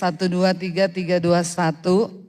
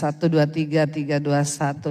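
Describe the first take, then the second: First: The voice sounds thin and high, lacking bass. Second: The voice sounds deeper, with more bass added. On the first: The speaker calls it wrong. "Terlalu kayak mak-mak ini" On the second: The speaker calls it right. "Lebih enak begini saudara ya"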